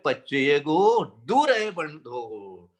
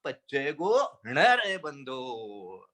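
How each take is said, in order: First: Slow chant, drawing out "दूर है बंधो"; contrasting recitation. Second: Slow chant, drawing out "न रहे बंधो"; contrasting recitation. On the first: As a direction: stretch "दूर" to show the verse's wording. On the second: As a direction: stretch "न" to show the changed syllable. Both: Shown as a demonstration. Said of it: "एक अक्षर बदला है".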